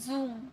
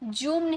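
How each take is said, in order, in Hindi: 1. यह 'z' ध्वनि से शुरू होता है। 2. यह 'j' ध्वनि से शुरू होता है। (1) "ज का साउंड आना चाहिए" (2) "जूम नहीं"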